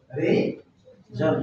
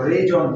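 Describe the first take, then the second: First: reason said very slowly and softly, stretched out; slow soft demo. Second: Said in the usual way. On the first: Shown as a demonstration. Teacher models the word: slow, soft, stretched reason. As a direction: ease reason out slowly and quietly for the class. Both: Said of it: "reason না কিন্তু".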